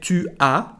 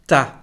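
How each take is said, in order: First: It is said as two full separate syllables. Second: It is contracted into one short syllable. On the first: The speaker calls it wrong. "we don't say tu as" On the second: The speaker calls it right. "but t'as"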